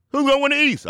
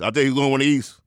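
First: High, urgent preacher's call; hyped question. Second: Said in the usual way. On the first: Acted. The Rev voices the East question, high hyped call. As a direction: throw it out high to the crowd.

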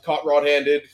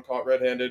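First: "Red-Handed" said with "Red" as "Rod"; pun on red-handed. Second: Said in the usual way. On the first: Shown as a demonstration. Player explains a punning team name, "Red-Handed" pronounced "Rod-handed". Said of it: "upon caught red-handed". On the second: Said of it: "we were called Caught Red-Handed".

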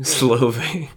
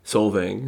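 First: "Slovang" as Slo-vang, L straight after the S, higher; mispronunciation. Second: "Solvang" with the L before the V; corrected pronunciation. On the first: Joking over the town's name, mispronounced "Slovang" as Slo-vang. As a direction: mangle it into "Slovang", like the start of Slovenia. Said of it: "sounds like a mispronunciation of Slovenia". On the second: Repeating the town after being corrected, "Solvang" as Sol-vang. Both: Shown as a demonstration.

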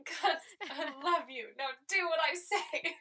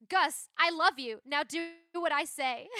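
First: Laughing requote. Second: Bossy Maddie quote. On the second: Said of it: "she just says". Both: Retold or imitated.

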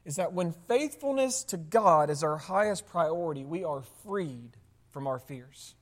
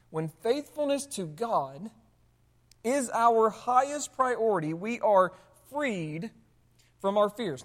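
First: Said in the usual way. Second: Slow, weighty repeat with pauses between phrases; slow emphatic repeat. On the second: Real, not acted. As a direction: repeat it slowly so every phrase lands. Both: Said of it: "the whole point that he's making is this".

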